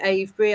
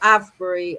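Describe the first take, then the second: First: It is said with a British pronunciation. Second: It is said with an American pronunciation. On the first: "We say Avebury" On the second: "as some Americans pronounce it"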